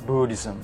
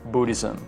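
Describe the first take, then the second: The two takes are said the same way.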